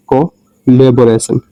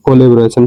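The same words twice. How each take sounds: First: collaboration said slowly, syllable by syllable; slow demo pronunciation. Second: Said in the usual way. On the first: Shown as a demonstration. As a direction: draw out collaboration slowly and clearly. (Collaboration को धीरे-धीरे साफ़ बोलें) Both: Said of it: "इसको पढ़ेंगे".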